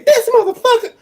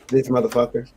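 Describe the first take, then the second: First: It is said at a very high pitch. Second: It is said at a normal, lower pitch. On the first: A fight is about to start. "if I go full soprano, there's about to be a fight" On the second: The speaker is angry. "like I'm pissed"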